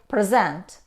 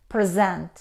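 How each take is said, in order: First: The stress is on the second syllable. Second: The stress is on the second syllable.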